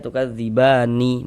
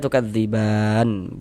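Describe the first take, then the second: First: The word ends with a short vowel after n. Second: The word ends on a bare n sound. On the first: The speaker calls it wrong. "Jangan dibaca tukadzibani baru berhenti, jangan, salah" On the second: The speaker calls it right. "Tapi kita baca tukadziban gitu. Huruf nunnya kita sukun"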